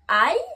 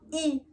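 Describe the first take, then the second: First: The letter is said with an 'eye' sound. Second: The letter is said with an 'ee' sound. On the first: The speaker calls it right. "mais je prononce bien I" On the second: The speaker calls it wrong. "que je ne prononce pas I"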